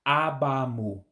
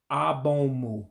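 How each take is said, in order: First: "abamu" with open a sounds throughout, the careful fix; corrected Igbo word. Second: Says "abomu" with an o in the middle, the first wrong try; a slip: "abomu" instead of abamu; mispronounced abomu. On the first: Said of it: "let me get it right". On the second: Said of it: "I said it incorrectly the first time". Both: Shown as a demonstration.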